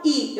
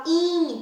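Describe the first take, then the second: First: I as a pure oral vowel, with no nasal sound. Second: In as a long nasal i, held out; nasalized i. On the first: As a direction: say a clean, short i through the mouth only. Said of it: "eu não falo i". (i oral, sem nasalizar) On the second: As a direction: hum the in through the nose and stretch it. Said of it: "Tem um som diferenciado". (in nasalizado e alongado) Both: Shown as a demonstration.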